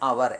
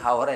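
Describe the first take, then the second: First: The word starts with a vowel, no h. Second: The word starts with an audible h sound. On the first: The speaker calls it right. "എച്ച് silent" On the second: The speaker calls it wrong. "ഹവർ അല്ല"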